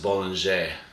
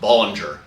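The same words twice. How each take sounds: First: It is pronounced the French way. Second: It is pronounced the American way.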